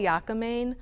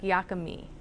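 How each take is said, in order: First: The word ends with a 'main' sound. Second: The word ends with an 'ee' sound. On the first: This is a reading based on the spelling. "I tend to pronounce it phonetically" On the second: This is how people who regularly eat the dish say it. "most people who make and eat the dish regularly say something that sounds more like"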